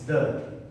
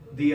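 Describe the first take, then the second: First: The vowel is a short 'uh' sound. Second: The vowel is a long 'ee' sound. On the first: The next word starts with another letter. "If it has to be with any other letter, it's the" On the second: The next word starts with a vowel. "if it's with a vowel, it has to be a the"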